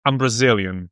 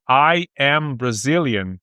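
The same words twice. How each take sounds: First: "I'm Brazilian" with "I'm" run together as one quick syllable; contracted form. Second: "I am Brazilian" with "I" and "am" as two separate, unhurried words; full uncontracted form. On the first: Teacher showing the student the native shortcut, quick and casual. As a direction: squeeze "I am" into "I'm", casual and fast. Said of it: "você vai falar". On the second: Teacher showing the student the long form, unhurried and clear. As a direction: spell out every word of "I am", a touch slow. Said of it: "ao invés de você falar". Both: Shown as a demonstration.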